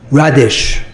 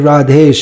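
First: The second syllable sounds like 'dish'. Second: The second syllable sounds like 'desh'. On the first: The speaker calls it wrong. "I call Radish Prabhu" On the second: The speaker calls it right. "it's just as easy to say as Radhesh"

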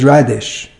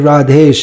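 First: The second syllable sounds like 'ish'. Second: The second syllable sounds like 'esh'. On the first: The speaker calls it wrong. "if I call you Radish" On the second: The speaker calls it right. "it's just as easy to say as Radhesh"

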